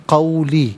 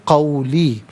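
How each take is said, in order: No difference in how they are said.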